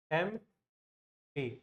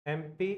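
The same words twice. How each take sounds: First: एमपी drawn out very slowly, letter by letter; slow careful spelling of एमपी; spelled out slowly. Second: Said in the usual way. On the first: Shown as a demonstration. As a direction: stretch एमपी out like spelling it on the board. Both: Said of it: "ऐसे लिखते हैं".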